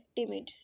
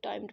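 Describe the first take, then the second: First: The first vowel is short, like 'tim'. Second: The first vowel is long, like 'time'. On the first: The speaker calls it right. "ये word है टिमिड" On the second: The speaker calls it wrong. "अक्सर लोग इसे टाइम्ड पढ़ते हैं, वो गलत है"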